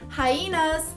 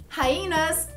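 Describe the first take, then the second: The two takes are said the same way.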